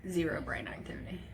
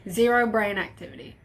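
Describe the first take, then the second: First: Soft unvoiced whisper; stunned whisper. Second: Said in the usual way. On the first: Real, not acted. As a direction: breathe the words out in shock. Repeats the news in a whisper.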